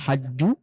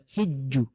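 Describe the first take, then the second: First: The first vowel is an open 'a' sound. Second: The first vowel is a close 'i' sound. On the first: "Ini bisa dibaca hajju" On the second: "bisa juga dibaca hijju"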